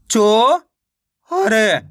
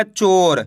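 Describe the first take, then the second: First: चो-र split in two, first part long and rising; stretched reading of चो-र by syllables. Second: Said in the usual way. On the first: Shown as a demonstration. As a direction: sound out चो, pause, then र. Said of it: "एक अक्षर का उच्चारण करके". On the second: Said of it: "मिलके बन जाएगा".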